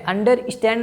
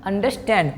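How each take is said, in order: First: "अंडरस्टैंड" split as under-istand; wrong pronunciation. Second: "अंडरस्टैंड" joined as an-der-stand, falling; "अंडरस्टैंड" as one smooth word; correct pronunciation. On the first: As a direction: put an extra i before the st in "अंडरस्टैंड". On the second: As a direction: say "अंडरस्टैंड" with no i before st. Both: Shown as a demonstration. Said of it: "अंडरस्टैंड नहीं".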